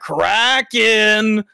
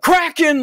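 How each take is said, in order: First: The name is emphasized and drawn out longer. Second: The name is said in a quick, short burst. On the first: "emphasize in like really go through with like" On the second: "even like quick bursts like"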